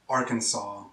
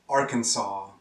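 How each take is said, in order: The two takes are said the same way.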